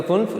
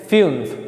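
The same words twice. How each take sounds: First: फुन्फ with a plain "oo" vowel; common mispronunciation. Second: फिउन्फ with umlaut as a "yu" glide; correct German pronunciation. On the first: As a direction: quote फुन्फ without the umlaut glide. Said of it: "लेकिन ये नहीं है". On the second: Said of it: "ऐसे है". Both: Shown as a demonstration.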